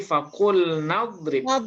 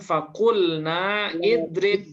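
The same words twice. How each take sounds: First: The glottal stop is dropped, linking into 'drib'. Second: A glottal stop is pronounced before 'idrib'. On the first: The speaker calls it right. "tapi fakulna idrib" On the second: The speaker calls it wrong. "Kita bacanya bukan fakulna idrib"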